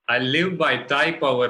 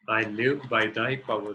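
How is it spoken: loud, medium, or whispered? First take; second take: loud; medium. First: It is spoken in a loud voice. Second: It is spoken at medium volume. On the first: "So let's affirm first, loudly" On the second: "then in a medium voice"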